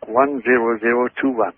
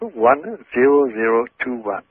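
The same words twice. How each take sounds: First: It is said at a normal pace. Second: It is said more slowly.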